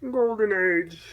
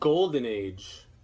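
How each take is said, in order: First: It is said in a Kermit the Frog voice. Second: It is said in a normal speaking voice.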